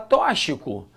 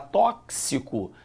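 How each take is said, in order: First: The x is pronounced as a single sound. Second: The x is pronounced as 'ks'. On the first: The speaker calls it wrong. "Não fala tóxico" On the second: The speaker calls it right. "você fala tóxico"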